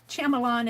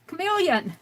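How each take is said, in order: First: The word begins with an 'sh' sound. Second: The word begins with a 'k' sound. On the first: The speaker calls it wrong. "it's not Shyamalan" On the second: The speaker calls it right. "it's chameleon"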